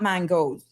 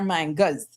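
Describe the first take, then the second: First: The word ends with an 'o' sound. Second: The word ends with an 'a' sound. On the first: The speaker calls it wrong. "they're not mangoes" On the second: The speaker calls it right. "they're mangas. Say it right"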